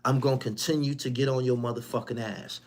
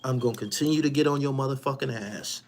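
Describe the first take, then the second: No difference in how they are said.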